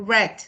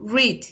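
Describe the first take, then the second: First: It is said the past-tense way. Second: It is said the present-tense way. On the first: It is the past participle. "en el pasado participio digo read" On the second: It is the present tense. "en el presente yo, puedo, yo digo read"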